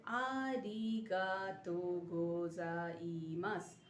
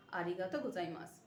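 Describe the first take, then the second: First: "আরিগাতো গোজাইমাস" stretched out syllable by syllable; drawn out, careful, low teaching voice; slow drill for learners; very slow model pronunciation. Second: Said in the usual way. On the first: Shown as a demonstration. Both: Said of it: "ওরা বলে".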